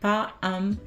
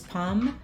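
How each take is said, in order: First: The two words are said as separate syllables. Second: The two words merge into one syllable.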